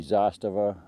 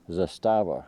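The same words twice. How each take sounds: First: Zastava with the stress on ZAS; Zastava, opening syllable stressed; stress on first syllable. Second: Zastava with the stress on STA; Zastava, middle syllable stressed; stress on second syllable. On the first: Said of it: "Now it could be Zastava". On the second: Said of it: "I've heard it pronounced both ways". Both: Shown as a demonstration.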